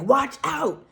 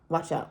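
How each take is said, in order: First: It is said loudly and urgently. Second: It is said at a normal, quiet volume.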